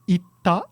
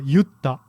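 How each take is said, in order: First: It is said in the standard Tokyo form. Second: It is said in the Kansai dialect form. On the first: "in past tense in the standard dialect is itta" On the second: "in Kansai, you're more likely to hear yutta"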